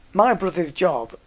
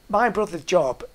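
The two takes are said the same way.

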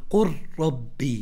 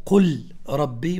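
First: "قل ربي" said qur-rabbi, lam dropped into a doubled r; the correct "قل ربي" with full assimilation; "قل ربي" slowly, lam swallowed by the ra; lam merged into ra. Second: "قل ربي" with the lam said fully, qul rabbi; the incorrect "قل ربي", lam not merged; "قل ربي" as qul rabbi, marked as wrong; wrong clear lam. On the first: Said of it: "وإنما تقول". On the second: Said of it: "ما تقول". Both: Shown as a demonstration.

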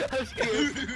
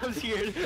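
First: High, louder scared cry. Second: Laughing scared. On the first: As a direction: squeal it out in fright. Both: Real, not acted.

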